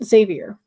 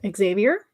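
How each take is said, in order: First: The name starts with a plain 'z' sound. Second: The name starts with an 'eks' sound. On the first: "or just Xavier" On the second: "the sort of like X pronounced"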